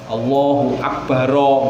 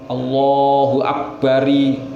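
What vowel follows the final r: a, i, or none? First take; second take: a; i. First: The final r is followed by an a vowel. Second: The final r is followed by an i vowel. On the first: "enggak boleh" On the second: "enggak boleh"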